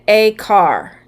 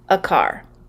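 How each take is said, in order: First: The article is stressed and sounds like 'ay'. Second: The article is unstressed and reduced to 'uh'. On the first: The speaker is being really specific about it. "if you want to be really specific and stress something" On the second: It is ordinary conversational speech. "typically in conversational speech"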